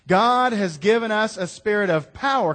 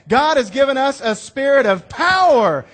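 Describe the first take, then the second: First: It is read in a plain, flat way. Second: It is said loudly with forceful conviction. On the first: The speaker calls it wrong. "Just don't read it" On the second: The speaker calls it right. "you got to say that like you mean it"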